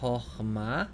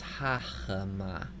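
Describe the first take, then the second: First: The first vowel is short. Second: The first vowel is long. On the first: The speaker calls it right. "read that uh, va- first vowel as a kametz hatuf. So this is chochma" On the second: The speaker calls it wrong. "or as a long ah?"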